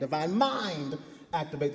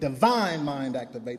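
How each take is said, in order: First: The word mind is stressed. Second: The word divine is stressed.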